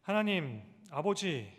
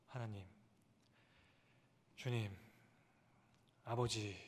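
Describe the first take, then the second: First: Calling out to God. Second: Soft crying out. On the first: Pastor shows the congregation how to cry out, calling loudly. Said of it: "이렇게 부르짖지 않습니까". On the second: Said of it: "이렇게 부르짖게 되죠". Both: Shown as a demonstration.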